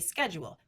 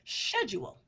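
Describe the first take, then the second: First: The word begins with an sk sound. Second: The word begins with an sh sound. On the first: "in a general American English rules ... The S C H is a S K sound" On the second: "if I were to say it in Great Britain ... The S C H is now an S H sound"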